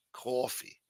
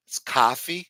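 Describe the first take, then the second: First: "Coffee" said with a rounded o, quiet; the corrected "Coffee". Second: "coffee" said the New York way, open vowel. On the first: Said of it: "You're saying coffee". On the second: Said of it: "In New York, we say coffee". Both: Shown as a demonstration.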